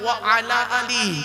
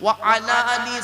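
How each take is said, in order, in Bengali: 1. Wa আর ala আলাদা থাকে; শেষ শব্দটি 'ee' দিয়ে শেষ হয়। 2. Wa আর ala আলাদা থাকে; শেষ শব্দটি 'ee' দিয়ে শেষ হয়।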